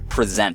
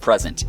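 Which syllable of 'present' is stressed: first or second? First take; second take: second; first. First: The stress is on the second syllable. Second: The stress is on the first syllable. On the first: It means to show something. The speaker calls it right. "it's present. So we're presenting some evidence" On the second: It means a gift. The speaker calls it wrong. "It's not present"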